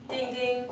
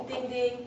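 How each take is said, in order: Both takes have the same delivery.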